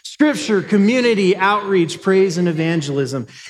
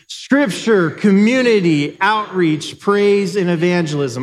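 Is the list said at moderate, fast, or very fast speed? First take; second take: very fast; fast. First: The list is said very fast. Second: The list is said faster than before.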